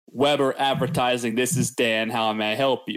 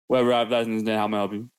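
First: The words are said clearly and separately. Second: The words are mumbled together like one word.

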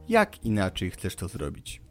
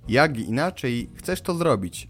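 First: The end of 'jak' stays voiceless before 'inaczej'. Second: The end of 'jak' is voiced before 'inaczej'. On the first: This is the standard Polish way of saying it. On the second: This is the Poznań dialect way of saying it. "Czy też"

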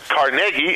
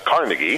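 First: The name is said the local way. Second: The name is said an outsider's way. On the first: The speaker calls it right. "Carnegie instead of" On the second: The speaker calls it wrong. "instead of Carnegie"

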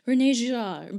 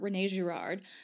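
First: The name is said with a French pronunciation. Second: The name is said with an American pronunciation. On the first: The speaker calls it right. "the proper French pronunciation is something like" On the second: The speaker calls it wrong. "this like butchered Americanized pronunciation"

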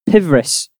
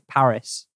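First: The name is read as 'pivris', with a V sound. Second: The name is read as 'paris', with no V sound. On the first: The speaker calls it wrong. "How it's P-V-R-I-S" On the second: The speaker calls it right. "you're supposed to pronounce it Paris"

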